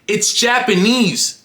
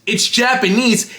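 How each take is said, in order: No difference in how they are said.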